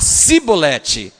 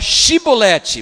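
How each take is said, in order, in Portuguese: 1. A palavra começa com som de 's'. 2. A palavra começa com som de 'sh'. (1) "mas ele não conseguia falar Shi. Ele falava Sibolete" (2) "era para falar Shibolete"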